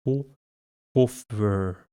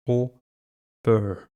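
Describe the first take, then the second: No difference in how they are said.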